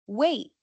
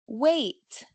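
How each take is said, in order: First: The final consonant is held, not released. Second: The final consonant is clearly released. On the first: It sounds informal. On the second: It sounds formal.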